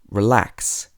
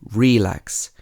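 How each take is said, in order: First: The stress is on the second syllable. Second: The stress is on the first syllable. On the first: The speaker calls it right. "You would say relax" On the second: The speaker calls it wrong. "So you wouldn't say relax"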